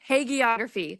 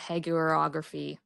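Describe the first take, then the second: First: The second syllable sounds like 'gee'. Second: The second syllable sounds like 'ger'. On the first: The speaker calls it right. "Thank you" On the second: The speaker calls it wrong. "I'm really butchering that"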